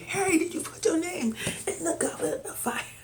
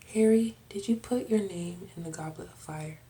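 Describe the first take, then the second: First: It is said in an agitated, intense way. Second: It is said calmly and gently.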